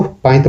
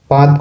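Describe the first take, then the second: First: पाइत with an i-glide before the t; Nagpuri pronunciation. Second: Said in the usual way. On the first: Shown as a demonstration. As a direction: say पाइत as "paa-it". (पाइत का नागपुरी उच्चारण, त से पहले इ) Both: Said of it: "बल देते हैं".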